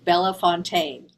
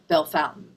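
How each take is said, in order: First: The name is said like 'bella fontaine'. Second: The name is said like 'bell fountain'. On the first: The speaker calls it wrong. "I've been saying it wrong the whole time" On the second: The speaker calls it right. "I know how to say uh, Bell Fountain"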